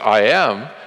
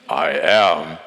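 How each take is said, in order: First: It is said in a normal voice. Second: It is said in a deep voice.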